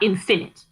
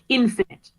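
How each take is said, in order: First: The stress is not on the first syllable. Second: The stress is on the first syllable. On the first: The speaker calls it wrong. "not infinite" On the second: The speaker calls it right. "you say it infinite, the emphasis is on that first syllable"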